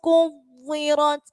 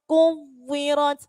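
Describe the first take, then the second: No difference in how they are said.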